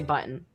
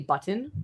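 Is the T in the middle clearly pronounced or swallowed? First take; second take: swallowed; pronounced. First: The middle T is swallowed, not released. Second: The middle T is clearly pronounced. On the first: "my T's" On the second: "I don't say button"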